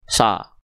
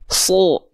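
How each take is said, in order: First: The vowel sounds like a plain, thin A. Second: The vowel sounds like a thick, rounded O. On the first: The speaker calls it wrong. "bukan sa" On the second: The speaker calls it right. "tapi so"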